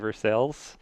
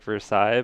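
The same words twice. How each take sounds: First: It is said with a local Kentucky pronunciation. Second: It is said with a French-style pronunciation. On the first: Locals recognize the town. "And you say Versailles" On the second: Locals do not recognize the town. "if you say that, everyone's like, "What? Where?""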